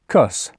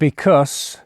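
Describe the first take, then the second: First: The first syllable is dropped entirely. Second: The word is said fully with its first syllable. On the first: "We just take off the B at the start" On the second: "Because becomes cuss"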